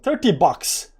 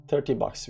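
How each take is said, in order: First: Thirty bucks burst out high and loud; a quick, high, loud cheer at the profit; excited. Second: Said in the usual way. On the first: Real, not acted. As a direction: cheer the small win. Celebrating a small profit.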